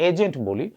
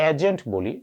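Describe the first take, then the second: No difference in how they are said.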